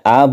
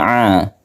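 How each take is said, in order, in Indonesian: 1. Vokal dimulai dengan hentian glotis yang ringan. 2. Vokal dimulai dengan tekanan tenggorokan yang kuat. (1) "ini hamzah a, bacaannya a" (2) "bukan a"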